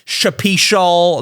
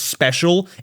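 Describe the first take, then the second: First: It starts with 'shap', adding an extra vowel. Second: It starts with a 'shp' sound and no vowel. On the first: The speaker calls it wrong. "I pronounced it like Shapishal Nick" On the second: The speaker calls it right. "I didn't know that his name was Special"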